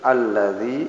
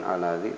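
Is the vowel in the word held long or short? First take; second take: long; short. First: The vowel is held long for two counts. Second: The vowel is said short, not lengthened. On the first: The speaker calls it right. "madhumi dua harakat panjang" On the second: The speaker calls it wrong. "bukan alladzi"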